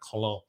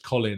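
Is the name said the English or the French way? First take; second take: French; English. First: The name is said with a French pronunciation. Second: The name is said with an English pronunciation. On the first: "you have the French Colin" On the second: "I don't know if it's Colin"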